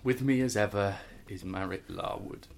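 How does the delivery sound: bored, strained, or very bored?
very bored. It is spoken in an even flatter, wearier tone. "And more bored"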